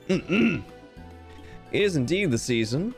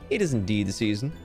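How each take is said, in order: First: It is spoken in a feminine character voice. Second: It is spoken in a masculine character voice. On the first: The speaker calls it right. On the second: The speaker calls it wrong.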